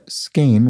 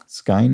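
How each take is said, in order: First: The vowel sounds like 'ay' as in 'cane'. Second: The vowel sounds like 'eye' as in 'fine'. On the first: The speaker calls it right. "is pronounced Skane" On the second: The speaker calls it wrong. "which I was pronouncing Skine"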